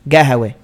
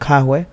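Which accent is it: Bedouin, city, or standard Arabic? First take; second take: Bedouin; standard. First: It is said with a g, Bedouin style. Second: It is said with a k sound, standard Arabic.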